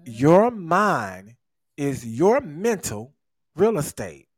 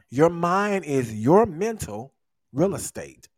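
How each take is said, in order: First: It is said slowly and deliberately. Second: It is said at a normal pace.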